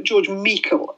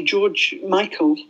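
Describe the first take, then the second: First: Michael said as MEE-kul; Michael as "Meekal", not "My-kul"; Scottish surname pronunciation. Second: Said in the usual way. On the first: Shown as a demonstration. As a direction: pronounce Michael with an "ee" in the first syllable. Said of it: "is probably the correct pronunciation". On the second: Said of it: "probably the correct pronunciation".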